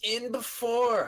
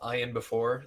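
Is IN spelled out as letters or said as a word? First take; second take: word; letters. First: IN is said as one word. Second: IN is spelled out as two letters. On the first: The speaker calls it right. "People are like it's" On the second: The speaker calls it wrong. "That's how I say it"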